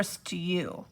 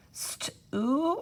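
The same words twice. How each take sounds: First: Stew stretched as "st-YOO"; long U in stew. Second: Stew stretched as "st-OO"; OO sound in stew. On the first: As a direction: say stew slowly with a "you" glide. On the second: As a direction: say stew slowly with a plain oo. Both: Shown as a demonstration. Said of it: "The oo or u".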